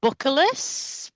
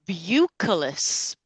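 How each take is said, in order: First: "bucculus" as BUCK-uh-lus, higher and rising; "bucculus" slowly, short first vowel, lifting at the end; questioning second attempt. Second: "bucculus" drawn out as BYOO-kuh-lus; "bucculus" said slowly, opening like "beauty"; unsure pronunciation. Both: Shown as a demonstration. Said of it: "whatever this thing is".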